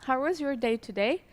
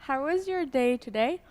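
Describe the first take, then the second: No difference in how they are said.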